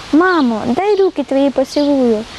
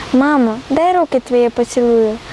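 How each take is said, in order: Both takes have the same delivery.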